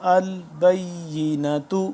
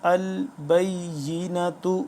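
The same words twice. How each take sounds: Both takes have the same delivery.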